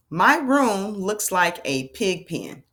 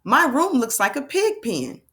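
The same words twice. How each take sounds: First: Slow, deliberate word-by-word reading; measured teacher's read-aloud, words held apart; model reading. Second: Higher, smoothly joined-up sentence; fluent and expressive model read-aloud. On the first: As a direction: read it slowly for children to repeat. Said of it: "read with fluency". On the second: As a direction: read it in one flowing, lively sweep. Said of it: "we like to read with fluency". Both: Shown as a demonstration.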